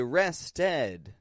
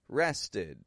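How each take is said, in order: First: The ending vowel sounds like 'eh'. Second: The ending vowel sounds like short 'i'. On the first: The speaker calls it wrong. "I'm not pronouncing it an eh. You know, I didn't just say rested" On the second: The speaker calls it right. "I gave it an I, I sound. The short I"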